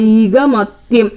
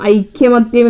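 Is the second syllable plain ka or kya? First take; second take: ka; kya. First: The second syllable has a plain k sound. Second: The second syllable has a y glide after k. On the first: The speaker calls it right. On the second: The speaker calls it wrong.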